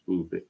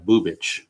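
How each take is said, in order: First: The name ends with a hard k sound. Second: The name ends with a ch sound. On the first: The speaker calls it wrong. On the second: The speaker calls it right.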